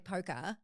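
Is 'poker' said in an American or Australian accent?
Australian. Australian accent, with no R sound at the end. Americans cannot understand it. "for an Australian to say poker"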